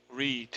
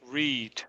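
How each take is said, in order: The two takes are said the same way.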